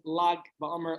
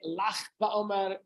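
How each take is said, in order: First: The first word ends in a hard g sound. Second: The first word ends in a throaty ch sound. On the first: This is the traditional pronunciation. "The traditional way is Lag BaOmer" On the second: It hints that it is a day to laugh. "Some say Lach BaOmer"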